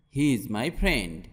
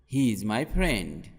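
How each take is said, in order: Both takes have the same delivery.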